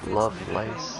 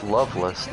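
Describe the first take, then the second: First: The name ends with a long 'lace' sound. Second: The name ends with a short 'less' sound. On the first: The speaker calls it wrong. "not lo Lovelace" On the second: The speaker calls it right. "It's Loveless"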